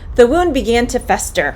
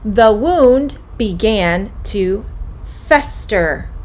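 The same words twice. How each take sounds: First: The sentence is said at a fast pace. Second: The sentence is said at a slow pace.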